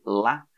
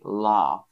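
First: It is said in a Northern English accent. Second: It is said in a Southern English accent. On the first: "people in Northern England would say laugh" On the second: "but in the South I say laugh"

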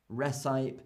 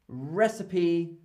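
First: The final E is silent. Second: The final E is sounded as a vowel. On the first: The speaker calls it wrong. "and not recipe" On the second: The speaker calls it right. "we say recipe"

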